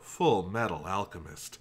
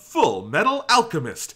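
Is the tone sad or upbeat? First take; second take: sad; upbeat. First: It is said in a sad announcer voice. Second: It is said in an upbeat announcer voice.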